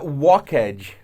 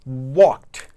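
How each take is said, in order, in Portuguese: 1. A terminação é uma sílaba extra com vogal. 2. A terminação é um t curto, sem sílaba extra. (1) "Não é walked" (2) "você vai evitar falar o e do ed"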